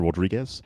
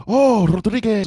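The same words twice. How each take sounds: First: Said in the usual way. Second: Rodriguez loud and high, Spanish rolled R; Spanish pronunciation. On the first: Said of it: "I don't say my name correctly". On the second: Retold or imitated. Concierge finally getting the guest's name, Rodriguez in exclaimed Spanish.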